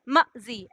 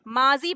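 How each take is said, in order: First: The first vowel is short and clipped. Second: The first vowel is drawn out long. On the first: The speaker calls it wrong. "झटके से मजी नहीं पढ़ रहे, मजी ऐसे नहीं पढ़ रहे" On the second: The speaker calls it right. "आप माजी पढ़ रहे हैं, सिर्फ अलिफ की आवाज़ आ रही है खींचने की"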